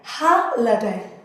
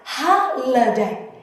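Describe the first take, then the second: The two takes are said the same way.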